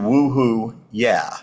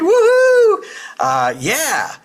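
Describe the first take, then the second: First: It is said flatly, without excitement. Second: It is said with excited energy.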